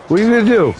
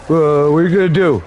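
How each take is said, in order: First: "What are you gonna do?" higher, cocky challenge; taunting. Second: Said in the usual way. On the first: Acted. Uncle daring the ghost Obi-Wan, cocky taunt. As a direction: dare him, up a notch.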